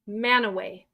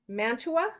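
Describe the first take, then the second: First: It is said with no 't', ending 'away'. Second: It is said as spelled, with a 't'. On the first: This is how locals name the city. The speaker calls it right. "Guess how it's said?" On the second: This is how the spelling suggests it. The speaker calls it wrong. "wouldn't you think that's Mantua?"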